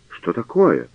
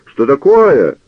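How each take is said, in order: First: Said in the usual way. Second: High, loud alarmed cry; old canon shielding himself with an umbrella, crying out high and loud. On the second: A narrator's reading. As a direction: shout «Что такое?» much higher and louder. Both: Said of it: "вскричал каноник".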